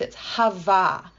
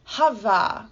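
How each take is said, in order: First: "hava" said slowly, HAH-vah, stress on first syllable; Hebrew word. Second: "hava" repeated lightly, HAH-vah, falling; Hebrew word repeated. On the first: Teacher showing the Hebrew word "hava", stressed HAH-vah. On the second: Teacher repeating the Hebrew word "hava", falling. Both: Shown as a demonstration. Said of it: "that Hebrew word gets repeated".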